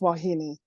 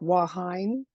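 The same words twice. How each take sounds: First: Every vowel is sounded as its own separate syllable. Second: The vowels are run together, as English spelling suggests. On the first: The speaker calls it right. "but it's Wahine" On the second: The speaker calls it wrong. "it looks like Wahine"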